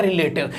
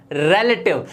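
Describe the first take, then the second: First: रिलेटिव as "ri-LAY-tiv"; short i, then long "lay" in रिलेटिव; wrong pronunciation. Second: रिलेटिव as "REL-uh-tiv", lower; correct pronunciation. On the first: Teacher mimics what everyone says, रिलेटिव with "lay". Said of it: "हर कोई बोल देता है". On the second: Teacher repeats for learners, रिलेटिव said "rel-uh-tiv". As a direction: open e, stressed first in रिलेटिव. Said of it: "ये होता है". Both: Shown as a demonstration.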